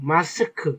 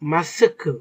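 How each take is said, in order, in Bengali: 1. k-এর পরে একটি খুব ছোট, মৃদু u ধ্বনি থাকে। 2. k-এর পরে একটি খুব ছোট, মৃদু u ধ্বনি থাকে।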